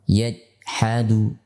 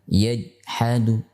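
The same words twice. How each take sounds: No difference in how they are said.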